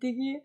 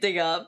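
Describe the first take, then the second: First: The word ends with an 'ee' sound. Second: The word ends with an 'uh' sound. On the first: The speaker calls it wrong. "please don't say Diggy" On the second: The speaker calls it right. "say dig up"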